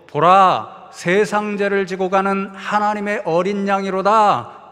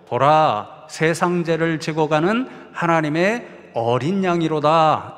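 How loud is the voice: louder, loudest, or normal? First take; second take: loudest; louder. First: It is shouted at the loudest volume. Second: It is said somewhat louder than normal. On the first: The speaker calls it right. "세 번째로 더 큰 목소리로 ... 외쳐서" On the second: The speaker calls it wrong. "조금 더 큰 목소리로"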